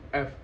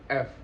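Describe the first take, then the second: The two takes are said the same way.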